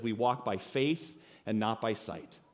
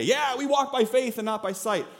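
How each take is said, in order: First: Slow, soft and earnest, weighing each word; solemn scripture reading. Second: Tossed off lightly, a bit higher; glib and easy. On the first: Preacher reads the verse slowly and softly to the congregation. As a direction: read the verse as a quiet heartfelt truth. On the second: Preacher mocks how easily believers say the verse, glibly. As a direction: say it like it costs nothing. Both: Shown as a demonstration. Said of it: "that's really easy to say".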